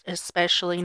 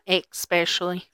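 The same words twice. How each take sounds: First: The word begins with a plain 's' sound. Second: The word begins with a 'ks' sound. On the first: The speaker calls it right. "it's pronounced especially" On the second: The speaker calls it wrong. "not especially"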